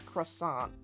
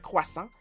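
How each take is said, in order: First: It is said with an English pronunciation. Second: It is said the French way, stronger R. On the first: "I'm being nice pronouncing it in English" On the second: "we push the R a little bit more"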